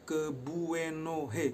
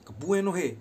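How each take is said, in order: First: "Kebuenohe" stretched very slow, syllable by syllable; slow pronunciation. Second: "Kebuenohe" shouted high and loud, falling; cursing demo. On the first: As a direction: teach "Kebuenohe" slowly and clearly. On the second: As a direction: spit out "Kebuenohe" like a real curse. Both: Shown as a demonstration. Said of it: "Logatnya begini".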